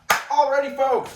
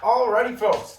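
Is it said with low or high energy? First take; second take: high; low. First: It is said with high energy. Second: It is said with low energy.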